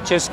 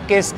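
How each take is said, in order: First: The word begins with a ch sound. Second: The word begins with a k sound. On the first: The speaker calls it right. "बाद में मुझे realise हुआ इसका नाम चिस्क है" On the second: The speaker calls it wrong. "मैं इसको सिस्क और किस्क करके प्रोनाउंस कर रहा था बहुत टाइम तक"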